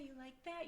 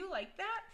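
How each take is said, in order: First: It is asked in a sultry, seductive tone. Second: It is asked in a plain, genuine tone. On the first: It is meant sexually. "in a porn, it's pretty much, "Oh yeah" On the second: It is a genuine question with no sexual meaning. "That's not how I'm asking. I'm like"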